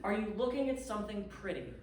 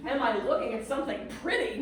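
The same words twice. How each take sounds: First: Gentle question. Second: Incredulous echo. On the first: Landlady calmly asking the stranded guest on the phone. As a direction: ask it kindly, with no rush. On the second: Stranded traveller echoing the landlady in disbelief. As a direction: throw the question back in disbelief. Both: Retold or imitated.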